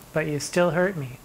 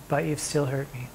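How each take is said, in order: Both takes have the same delivery.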